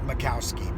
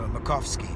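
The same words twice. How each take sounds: First: The w is said as a w sound. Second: The w is said as an f sound. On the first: The speaker calls it wrong. "not Makowski" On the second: The speaker calls it right. "the W turns into an F. So Makowski"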